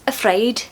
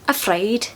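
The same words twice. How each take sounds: Both takes have the same delivery.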